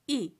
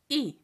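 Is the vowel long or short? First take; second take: short; short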